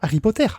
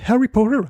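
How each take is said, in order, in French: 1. Ce nom se prononce à la française. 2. Ce nom se prononce à l'anglaise. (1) "elle dit pas" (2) "elle dit comme ça"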